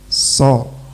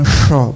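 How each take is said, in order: First: The syllable starts with a plain s sound. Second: The syllable starts with an sh sound. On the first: The speaker calls it right. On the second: The speaker calls it wrong.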